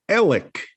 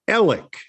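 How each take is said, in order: No difference in how they are said.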